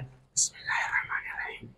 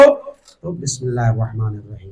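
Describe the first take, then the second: First: It is said softly, under the breath. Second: It is said loudly, voice audible.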